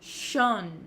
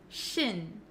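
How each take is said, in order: First: The vowel is a rounded, open O sound. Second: The vowel is a short, unrounded I sound. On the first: The speaker calls it wrong. "a lot of students say shon, shon. They make that O sound" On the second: The speaker calls it right. "we actually pronounce it as shin, shin. ... my mouth is not opening like an O sound"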